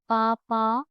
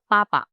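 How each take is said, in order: First: The P is softened, without a burst. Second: The P is popped out with a burst. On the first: The speaker calls it wrong. "It's not it's not like papa" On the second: The speaker calls it right. "it's like papa"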